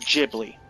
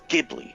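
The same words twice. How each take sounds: First: The word begins with a J sound. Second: The word does not begin with a J sound. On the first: This is the American English way of saying it. "It's Ghibli with a J" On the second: This is the original studio's way of saying it. "if you're looking to pronounce it correctly from its original studio origins"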